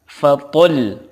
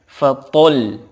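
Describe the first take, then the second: No difference in how they are said.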